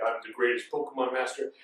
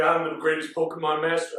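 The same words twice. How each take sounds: First: Deep, softer villain voice; Mewtwo. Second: Mewtwo. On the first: Mewtwo correcting his changed voice, deep boast. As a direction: sink low and quiet for the boast. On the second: Mewtwo coming down to trainers, low boast. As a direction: lower mock-villain boast. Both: Retold or imitated. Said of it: "I don't know why he changed his voice".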